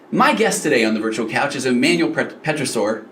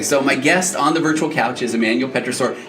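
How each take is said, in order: First: The voice sounds lively and excited. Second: The voice sounds flat and defeated.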